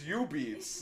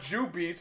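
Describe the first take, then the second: First: The word starts with a Y sound. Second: The word starts with a J sound. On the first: The speaker calls it right. "it's U-beats. Like, why do you put the J in there?" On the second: The speaker calls it wrong. "it's not Jubeats"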